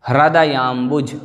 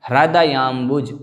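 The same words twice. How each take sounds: Both takes have the same delivery.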